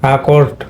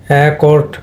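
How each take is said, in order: First: অ্যাকর্ড opened with an "a" (আ) sound; "আ" sound first. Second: অ্যাকর্ড opened with an "e/æ" sound; "এ" sound first. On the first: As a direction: say অ্যাকর্ড as "a-KORD". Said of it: "তোমার আ উচ্চারণ হবে". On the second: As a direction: say অ্যাকর্ড as "e-KORD". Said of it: "এটা কিন্তু এ হবে না". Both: Shown as a demonstration.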